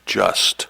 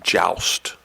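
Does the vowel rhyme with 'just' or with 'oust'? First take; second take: just; oust. First: The vowel sounds like the one in 'just'. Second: The vowel sounds like the one in 'oust'. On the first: This is a less common pronunciation. "It could also be pronounced sometimes as just" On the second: This is the usual pronunciation. "normally we pronounce it joust"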